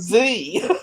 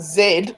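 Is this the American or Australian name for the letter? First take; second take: American; Australian. First: The letter is named the American way. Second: The letter is named the Australian way. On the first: This is how Americans say it. "you guys call it Z" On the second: This is how Australians say it. "We call it Z"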